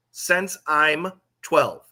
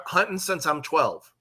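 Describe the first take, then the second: First: "Since I'm twelve" slowly, word by word; slow emphatic quote. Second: Said in the usual way. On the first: Retold or imitated. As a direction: draw out "Since I'm twelve" to point up the phrase. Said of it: "Everyone here says that". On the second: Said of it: "one of the things that happens out here".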